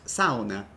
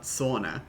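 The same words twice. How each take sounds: First: "sauna" said as SOW-na; Finnish pronunciation. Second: "sauna" said as SAW-na; English pronunciation. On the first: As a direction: say "sauna" with an "ow" vowel. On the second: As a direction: say "sauna" with an "aw" vowel. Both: Shown as a demonstration. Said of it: "It's pronounced sauna, not sauna".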